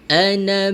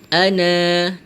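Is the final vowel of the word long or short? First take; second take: short; long. First: The final vowel is kept short. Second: The final vowel is held long. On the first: The speaker calls it right. "kita baca pendek satu harakat saja" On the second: The speaker calls it wrong. "bukan ana"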